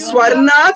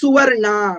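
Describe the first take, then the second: First: The word begins with a 'swa' cluster. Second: The word begins with a separate 'su' syllable. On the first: The speaker calls it wrong. "ஸ்வர்ணா சொல்லாதீங்கோ" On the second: The speaker calls it right.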